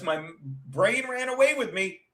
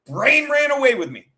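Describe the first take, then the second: First: Said in the usual way. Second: "Brain" punched higher and louder, the whole phrase stressed; emphatic repeat. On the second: Real, not acted. Repeating her own line about the cat panic, emphatic and louder. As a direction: hit "Brain" hard, louder and higher the second time.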